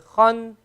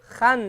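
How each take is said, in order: First: The vowel sounds full, heavy and rounded. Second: The vowel sounds thin and light, not rounded. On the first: The speaker calls it right. "It's a round letter, so khan" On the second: The speaker calls it wrong. "but if you say khan, that's wrong"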